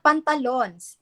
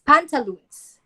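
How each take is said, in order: First: "pantalons" said with a short, flat o like pan-ta-lons; the mispronunciation "pantalons" with its final "lons" clipped; wrong pantalons. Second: "pantaloons" with a long oo, pan-ta-LOONS; correct pantaloons. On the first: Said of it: "It's not pantalons". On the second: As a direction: model "pantaloons" clearly, stretching the oo. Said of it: "It is pantaloons". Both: Shown as a demonstration.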